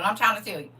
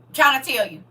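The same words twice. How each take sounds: First: Said in the usual way. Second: "trying" pressed louder; stress on trying. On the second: Shown as a demonstration. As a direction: lean into "trying".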